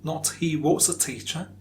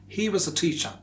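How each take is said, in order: First: 'Was' is said in its strong, full form. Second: 'Was' is said in its weak, reduced form. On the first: The speaker calls it wrong. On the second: The speaker calls it right. "So the weak form is was"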